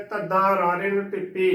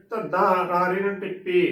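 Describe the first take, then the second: No difference in how they are said.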